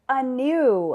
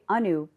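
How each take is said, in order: First: The name has an anglicized American pronunciation. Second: The name has its original native pronunciation. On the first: This is a changed version to be understood. The speaker calls it wrong. "because that wasn't my name" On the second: This is how the name is really said. The speaker calls it right. "I'll say Anu properly"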